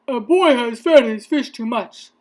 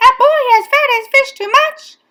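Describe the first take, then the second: First: Lightly voiced officer, loud report; a hint of policeman on the radio. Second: High, fast, very loud repeat; alarmed exclamation. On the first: Policeman reporting to firemen, lightly voiced and loud. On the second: Firemen echoing the radio call, high fast shout. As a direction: shout it back in disbelief. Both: A narrator's reading.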